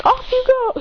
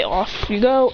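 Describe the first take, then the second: First: High-pitched character call; Ash. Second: Said in the usual way. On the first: Acted. Boy dispatching the Ultra Guardians, high-pitched call. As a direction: send them off in a high voice. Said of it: "Ash says". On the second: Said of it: "when she can't say".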